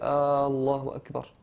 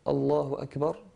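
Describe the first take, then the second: First: The opening vowel is drawn out long. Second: The opening vowel is short and plain. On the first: It asks whether God is great. The speaker calls it wrong. "il disait ... qui veut dire en arabe Dieu est-il grand" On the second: God is great. The speaker calls it right. "au lieu de dire"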